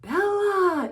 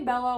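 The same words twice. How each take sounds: First: The name is said with a gasp and feeling. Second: The name is said casually and flatly.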